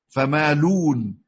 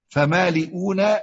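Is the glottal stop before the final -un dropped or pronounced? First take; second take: dropped; pronounced. First: No glottal stop; the vowel before is rounded. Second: A glottal stop is heard before the final syllable.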